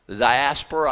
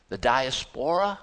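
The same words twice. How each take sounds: First: "diaspora" stressed on the second syllable, di-AS-po-ra; corrected stress. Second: "diaspora" stressed on the third syllable, dia-SPO-ra; misplaced stress. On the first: Preacher correcting himself, "diaspora" stressed as di-AS-po-ra. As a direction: hit AS in "diaspora": di-AS-po-ra. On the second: Preacher misreading to congregation, "diaspora" stressed wrongly as dia-SPO-ra. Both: Real, not acted. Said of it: "the emphasis in the wrong syllable".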